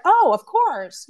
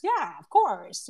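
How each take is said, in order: First: High, louder, slow delighted oh; sudden bright yes, drawn out; glad, slow high "Oh, of course"; excited agreement. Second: Said in the usual way. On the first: Retold or imitated. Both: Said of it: "And she's like".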